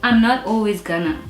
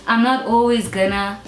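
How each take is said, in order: Both takes have the same delivery.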